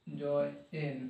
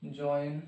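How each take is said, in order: First: "join" split as joy, pause, en, softly; quiet, halting joy... en; broken into syllables. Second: Said in the usual way. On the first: Shown as a demonstration. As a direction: sound out "join" in two separate parts. Teacher splitting word into parts.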